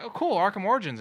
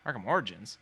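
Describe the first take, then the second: First: High, loud, enthused reaction; retold excited exclamation; excited fans. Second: Bemused, much less excited repeat; retold baffled query; puzzled echo. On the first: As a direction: imitate fans cheering the news. Fans react happily to news. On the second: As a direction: echo it back as a confused question. Actor puzzled by fans' answer.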